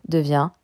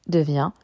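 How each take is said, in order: The two takes are said the same way.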